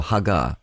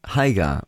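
First: Hagar said huh-GAR, short first vowel; alternative pronunciation of Hagar. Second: Hagar said HAY-gar, long "ay" first; alternative pronunciation of Hagar. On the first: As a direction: say "Hagar" with a short first syllable and long "ah" last. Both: Shown as a demonstration. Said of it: "however you want to say it".

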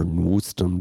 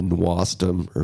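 First: "Nwustum" with a rounder vowel in the first syllable; alternate pronunciation. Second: "Nwastum" with an "ah" in the first syllable; alternate pronunciation. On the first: Host offers the other way to say the band name, "Nwustum" with a U. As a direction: say "Nwustum" with U in place of A. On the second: Host offers one way to say the band name, "Nwastum" with an A. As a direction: say "Nwastum" with an open A vowel. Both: Shown as a demonstration. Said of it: "depending on how you pronounce it".

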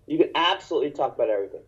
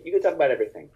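First: Absolutely pushed, fast and firm; stress on absolutely. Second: Said in the usual way. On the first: Shown as a demonstration. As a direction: hammer absolutely.

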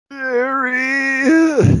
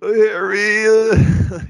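First: Very high, panicked yelp of the name; freaked-out Ron. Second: Put-on high, whiny, cracking teen voice; whiny Ron voice. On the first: Retold or imitated. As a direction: shriek it in terror at spiders. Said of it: "so freaked out". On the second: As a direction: whine his name like a scared kid. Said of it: "that whiny voice he did".

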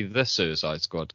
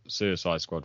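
First: "The Suicide Squad" with the "The" clearly said; stress on the title. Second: Said in the usual way. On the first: Shown as a demonstration. Correcting his co-host on the film title, stressing the "The". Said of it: "you've gotta say The Suicide Squad". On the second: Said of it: "'cause it's not Suicide Squad".

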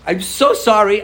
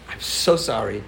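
First: Higher, louder, earnest mock sorry; pleading apology. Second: Softer, mildly acted sorry; a touch of a sheepish kid apologizing; meek apology. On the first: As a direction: push the apology up, begging a bit. Friend apologizes again, earnestly. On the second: Friend apologizes on school bus.

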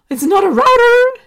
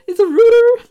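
First: High, loud, gasping squeal over "router" said as ROW-ter; mock American outrage. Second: Very high and loud, "router" said as ROO-ter; mock British insistence. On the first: Podcaster mocking Americans' "router" in a shrill squeal. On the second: Podcaster insisting on the British "router" in a shrill squeal. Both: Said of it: "it does my head in when Americans say".

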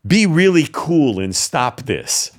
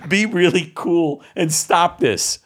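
First: Said in the usual way. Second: Mock kid. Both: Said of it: "What eight-year-old kid is gonna say this".

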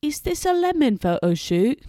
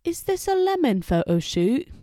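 First: High, loud mock British gentleman; British accent, rising on the question. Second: Put-on high, loud second try at the British accent; British accent, louder and higher; British accent again. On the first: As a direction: put on a posh British voice for the question. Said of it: "the guy says in a British accent". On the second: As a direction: redo the Brit, rising on the question. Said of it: "Let me try again".

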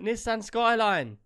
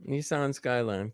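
First: Nissan as NISS-an, short vowels, slow and loud; British pronunciation. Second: Nissan as NEE-sahn, long open vowel, slow; American pronunciation. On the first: Brit correcting his American co-host, British pronunciation. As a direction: demonstrate Nissan slowly as "NISS-an", pitched up. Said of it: "It's a Nissan, isn't it?". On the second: American echoing his British co-host's correction, American pronunciation. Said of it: "It's Nissan over here". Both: Shown as a demonstration.

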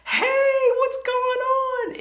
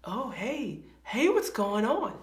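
First: Much higher and louder, stretched greeting; overly cheerful hello. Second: A nervous hello once you see their face; awkward hello. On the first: Greeting someone who is angry, loud and chirpy. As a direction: sing out an oblivious happy hello. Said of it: "you're like". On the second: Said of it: "and it's like". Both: Retold or imitated.

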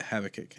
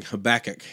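First: Habakkuk said HAV-uh-kick, stress up front; other pronunciation. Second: Habakkuk said huh-BACK-ick, stress in the middle; childhood pronunciation. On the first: Retold or imitated. Recalling how somebody else said it, Habakkuk stressed on the first syllable. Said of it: "maybe Kevin said Habakkuk". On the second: Shown as a demonstration. Telling how he grew up saying it, Habakkuk stressed on BACK. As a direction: put the weight on BACK in Habakkuk. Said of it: "I just grew up going Habakkuk".

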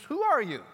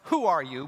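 First: "are" lifted high and stressed. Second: WHO hit firmly, falling; stress on who. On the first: Preacher asking the congregation, "are" stressed. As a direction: push up on "are" in "Who are you?". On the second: Preacher posing the question, WHO stressed. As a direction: lean on "Who" in "Who are you?". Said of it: "our question was". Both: Shown as a demonstration.

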